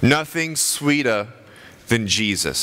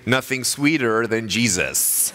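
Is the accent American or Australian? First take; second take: Australian; American. First: It is spoken in an Australian accent. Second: It is spoken in an American accent. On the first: "So I'm from Australia" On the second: "If I had an American accent, I would say"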